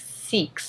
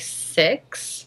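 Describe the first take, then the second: First: It is said in an Australian accent. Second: It is said in a New Zealand accent. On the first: "They say it like seeks, so it sounds kind of like the word sex" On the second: "we would say six, like that"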